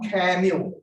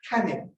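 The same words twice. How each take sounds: First: It is said with an r sound. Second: It is said without an r sound. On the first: The speaker calls it wrong. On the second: The speaker calls it right.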